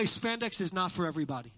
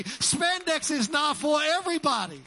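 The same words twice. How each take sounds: First: Said in the usual way. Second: Emphatic proclamation. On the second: Real, not acted. Pastor asking the congregation to clap in agreement, loud emphatic proclamation. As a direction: proclaim it to rally the crowd. Repeats it louder for applause.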